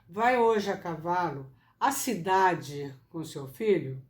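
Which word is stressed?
cidade. The word cidade carries the strongest stress. The question is about the destination.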